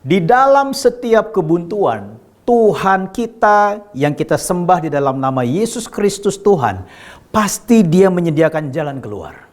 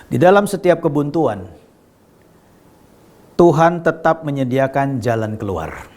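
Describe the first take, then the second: First: Slow, weighty stress on "setiap kebuntuan" and "pasti"; emphatic repetition. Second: Deliberate, with a long pause midway; measured key statement. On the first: Preacher repeating his promise to the congregation, slow emphatic declaration. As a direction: draw out "Tuhan kita" and drive home "pasti". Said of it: "Saya ulangi sekali lagi". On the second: Preacher asking listeners to hear this well, measured statement. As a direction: state it calmly and let it sink in. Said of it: "dengar baik-baik". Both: Real, not acted.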